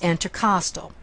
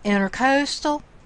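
First: The middle syllable sounds like 'cost'. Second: The middle syllable sounds like 'coast'. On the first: It refers to the area between the ribs. The speaker calls it right. "This is intercostal" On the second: It refers to a coastal waterway. The speaker calls it wrong. "This is not intercoastal"

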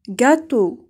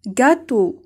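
Both takes have the same delivery.

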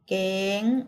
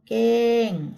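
First: The word is said on a high tone. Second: The word is said on a falling tone. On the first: "เสียงตรี" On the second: "เสียงโท"

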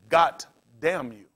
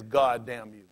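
First: The first word ends with a t sound. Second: The first word ends with a d sound. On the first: "when they get upset, for whatever reason, they'll say" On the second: "He never says"

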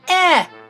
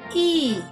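First: The vowel is a short 'eh' as in 'egg'. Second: The vowel is said like the name 'ee'. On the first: "Short E" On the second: "Long E"

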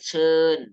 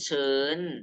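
First: The syllable has a falling tone. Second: The syllable has a high tone. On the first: "ไม้เอก" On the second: "ไม้โท"

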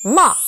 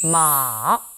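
First: The pitch drops sharply from a struck start. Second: The pitch goes down slowly and long. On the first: "짧게 첫음을 탁 쳐주는 느낌" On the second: "삼성은 쭉 길게 내려옵니다"

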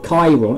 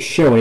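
First: The word begins with a K sound. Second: The word does not begin with a K sound. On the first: The speaker calls it right. "I'd spell it with a K instead of a C" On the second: The speaker calls it wrong. "the only reason I called it Chiron is because if you're a car guy"

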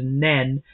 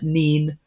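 First: The vowel is short, like 'e'. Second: The vowel is long, like 'ee'. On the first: This is the pronunciation used in other parts of the county. "Depending upon where you live in the county, it is Nen" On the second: This is the speaker's own local pronunciation. "I call it Neen"

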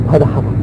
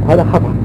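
No difference in how they are said.

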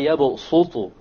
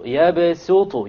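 First: The s sound is the heavy sad. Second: The s sound is the plain seen. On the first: The speaker calls it wrong. "So you don't say" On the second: The speaker calls it right. "it is preferred to pronounce it with a seen"

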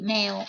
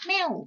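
First: The syllable has a level mid tone. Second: The syllable has a falling tone. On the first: "พื้นเสียง" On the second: "เติมไม่เอก, เสียงโท"

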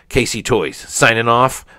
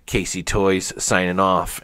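First: It is said in a put-on girlish voice. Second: It is said in the speaker's natural voice.

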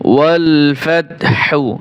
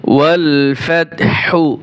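First: The last word ends with a voiced hu vowel. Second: The same.

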